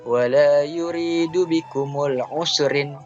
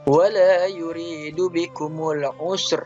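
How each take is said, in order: First: The last word ends with an added -in. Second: The last word ends on a bare r. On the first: The reading continues without stopping. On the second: The reader stops at this word.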